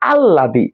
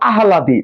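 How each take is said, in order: First: No h sound; a long double l instead. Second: An h sound is heard before the l. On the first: "আমরা উচ্চারণ করতেছি কি আল্লাদি" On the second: "আমরা লিখতেছি কি আহ্লাদি"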